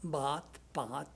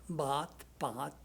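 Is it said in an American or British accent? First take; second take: British; British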